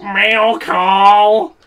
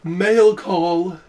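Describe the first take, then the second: First: Loud, high, nasal dork voice. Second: Divine voice. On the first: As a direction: bark it out like a dorky mailman. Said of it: "a loud, like, nasally voice". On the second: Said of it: "that divine". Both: Retold or imitated.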